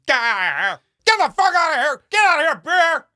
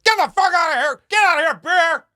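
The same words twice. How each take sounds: First: Higher, much louder frantic shouting; panicked yell. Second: Higher, much louder yell to scare off a bear; big scary yell. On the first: Retold or imitated. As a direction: yell in panic while backing away. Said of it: "dropping his phone and going". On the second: Shown as a demonstration. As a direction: roar it out to make yourself big. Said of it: "You gotta make yourself big".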